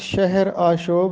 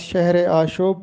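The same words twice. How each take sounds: First: The two words are said without a linking e. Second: The two words are linked with an e sound. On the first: The speaker calls it right. "ये दुरुस्त तलफ़ुज़ शहर आशोब है" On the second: The speaker calls it wrong. "इजाफ़त के साथ शहर आशोब पढ़ा जाता है जो कि गलत है"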